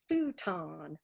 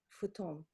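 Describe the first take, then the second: First: It is said with an American English accent. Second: It is said with a Japanese accent.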